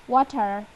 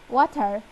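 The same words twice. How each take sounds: First: It is said in an Indian accent. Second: The same.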